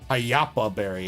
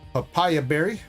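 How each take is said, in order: First: The name is said with syllables swapped, payapa. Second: The name is said like the fruit, papaya. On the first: The speaker calls it right. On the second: The speaker calls it wrong.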